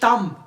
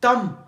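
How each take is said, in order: First: The final b sound is silent. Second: The same.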